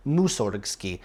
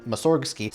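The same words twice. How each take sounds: First: "Musorgsky" stressed on its first syllable, MU. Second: "Mussorgsky" stressed on its second syllable, SORG. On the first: Narrator showing correct Russian rules, first-syllable stress. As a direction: say "Musorgsky" as MU-sorg-sky, front-stressed. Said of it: "exactly correct Russian pronunciation rules". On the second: Narrator demonstrating the shifted emphasis, second-syllable stress. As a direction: hit the middle of "Mussorgsky": mu-SORG-sky. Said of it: "Pronouncing Mussorgsky's name like I just did". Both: Shown as a demonstration.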